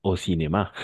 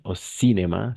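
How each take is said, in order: First: "cinéma" with the stress on its last syllable, MA; final-syllable stress. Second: "cinéma" stressed early, not on the final syllable; wrong stress in cinéma. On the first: Teacher correcting a student's French, "cinéma" stressed on the end. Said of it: "el acento prosódico siempre va a ir al final". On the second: Teacher showing a student the mistake, "cinéma" wrongly stressed before the end. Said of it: "no es au cinéma, sino". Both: Shown as a demonstration.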